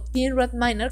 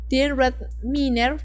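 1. El nombre se pronuncia con pronunciación inglesa. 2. El nombre se pronuncia con pronunciación de estilo español.

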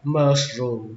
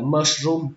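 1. Giọng đi đều suốt từ. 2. Giọng lên xuống không đều suốt từ. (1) "Các bạn nhớ xuôi giọng mushroom" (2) "không phải là mushroom"

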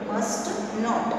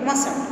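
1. इसे दो अलग-अलग पूरे शब्दों के रूप में बोला जाता है। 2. इसे एक संक्षिप्त शब्द के रूप में बोला जाता है। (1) "फुल फॉर्म में हम इसको क्या पढ़ेंगे?" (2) "शॉर्ट फॉर्म में पढ़ेंगे मसंट"

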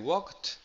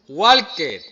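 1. La terminación no es una sílaba aparte. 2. La terminación se pronuncia como una sílaba aparte. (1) "La ed no se pronuncia" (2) "Hay gente que aprueba y dice walker"

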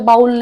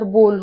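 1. स्वर 'ow' सारखा आवाज देतो. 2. स्वर 'oh' सारखा आवाज देतो. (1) "याचा उच्चार बाऊल नाही होत" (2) "याचा उच्चार बोल होतो"

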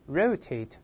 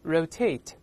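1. 重音在第一个音节。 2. 重音在第二个音节。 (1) "美音呢重音在前面" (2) "英式发音重音在后面"

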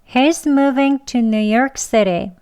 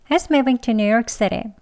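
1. 이 문장은 천천히, 신중하게 말했어요. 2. 이 문장은 빠르게 말했어요. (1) "두 번 하겠습니다" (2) "빨리 합니다"

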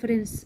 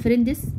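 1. صوت الـ d بيتشال قبل الـ s. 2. صوت الـ d بيتنطق قبل الـ s. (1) "نقول فرنس. دي سايلنت مش بننطقها" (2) "لا نقول فريندس"

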